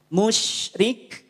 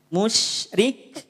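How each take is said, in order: No difference in how they are said.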